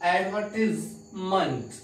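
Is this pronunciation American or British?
British. It is said with a British pronunciation. "यानी British English में"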